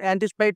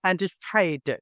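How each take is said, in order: First: The p is soft, with little puff of air. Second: The p is pressed, with a sudden puff of air. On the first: The speaker calls it wrong. "అన్ యాంటిసిపేట్ అంటారు" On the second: The speaker calls it right. "అలా కాదండి యాంటిసిపేట్"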